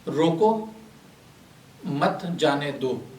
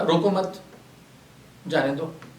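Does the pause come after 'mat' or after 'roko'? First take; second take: after roko; after mat. First: The pause comes right after 'roko'. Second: The pause comes right after 'mat'.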